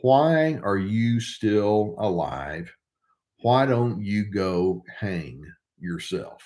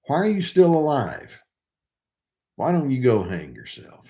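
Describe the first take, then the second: First: Slow, cold, deliberate cruelty; slow cold quote. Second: Incredulous rereading. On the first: Narcissist taunts a victim, slow and cold. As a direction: let each word drop cold and slow. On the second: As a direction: reread it aloud, stunned by it. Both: Retold or imitated. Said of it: "the narcissist said to me".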